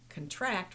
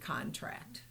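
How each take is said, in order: First: The stress is on the second syllable. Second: The stress is on the first syllable. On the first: It is used as a verb. The speaker calls it right. "you know that you need to use contract" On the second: It is used as a noun. The speaker calls it wrong. "rather than contract"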